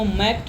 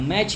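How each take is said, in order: First: The word ends with a 'k' sound. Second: The word ends with a 'ch' sound. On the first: The speaker calls it wrong. "अभी तक हम लोग मैच को मैक थोड़ा ना पढ़ते हैं" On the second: The speaker calls it right. "मैच ही पढ़ते थे, मतलब सी एच का उच्चारण यहाँ च की तरह है"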